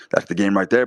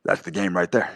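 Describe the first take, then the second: First: "there" pushed out louder on a rising tune; louder repeat. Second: Said in the usual way. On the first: Shown as a demonstration. Repeating his point to viewers, louder and punchier. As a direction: hammer "That's the game right there" harder the second time.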